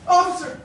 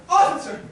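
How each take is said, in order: First: Loud call to the officer. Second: Loud repeated call. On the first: Gentleman shouts for the officer to arrest her. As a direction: summon the policeman. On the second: Gentleman shouts again for the officer. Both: Acted. Calling the police.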